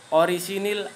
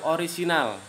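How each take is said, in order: First: The last vowel sounds like 'i'. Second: The last vowel sounds like 'a'. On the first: The speaker calls it wrong. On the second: The speaker calls it right.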